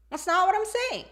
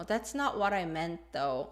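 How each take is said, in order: First: High-pitched, insistent contradiction; confrontational. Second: Mild objection with a falling end; hesitant, non-confrontational. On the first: Teacher voicing the confrontational version, high insistent pushback. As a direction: push back, pitched well above usual. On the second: Teacher voicing someone who won't fight, hesitant. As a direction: disagree gently, letting it drop. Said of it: "it shows hesitation and it's non-confrontational". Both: Shown as a demonstration.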